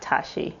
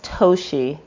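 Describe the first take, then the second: First: The first vowel is an 'ah' sound. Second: The first vowel is a long O sound. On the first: The speaker calls it wrong. "not Tashi, which people tend to say" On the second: The speaker calls it right. "That's a long O"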